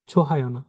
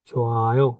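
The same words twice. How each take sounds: First: ছোহায় with a sounded h; the rejected way: ছোহায়, h voiced; wrong reading. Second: ছোয়ায় with the h dropped; correct reading. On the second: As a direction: say ছোয়ায়, no h, rising end. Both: Shown as a demonstration.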